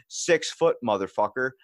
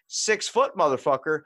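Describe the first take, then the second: First: His words quoted plainly, a small sneer; mocking his insult. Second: Higher and louder, throwing the insult back in disbelief; incredulous angry retort. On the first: Quoting the stranger's insult at Food Lion, mild sneer. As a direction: toss off the stranger's insult flatly. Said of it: "he just turns around and goes". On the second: Retold or imitated. Retelling how he answered the man in the doorway, outraged loud retort. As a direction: repeat his words back at him, outraged and loud. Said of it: "I was like".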